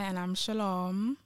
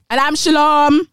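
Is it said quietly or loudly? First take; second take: quietly; loudly. First: It is said quietly. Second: It is said loudly.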